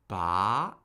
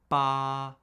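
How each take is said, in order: First: The pitch starts mid and rises to high. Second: The pitch stays high and level throughout. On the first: "That's the rising tone" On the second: "The first tone is high, flat, and unchanging"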